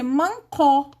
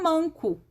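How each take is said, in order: First: The stress is on the last syllable. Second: The stress is on the first syllable. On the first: This form would rhyme with the other word. "Para rimar, teria que ser mancó" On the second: This is the real word, which does not rhyme. "E não manco... quando a sílaba não é tônica"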